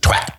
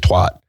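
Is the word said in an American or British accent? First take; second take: British; American. First: It is said with a sharper British accent. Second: It is said with an American accent. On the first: "And you're just twat. / It's a lot sharper" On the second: "where I say twat"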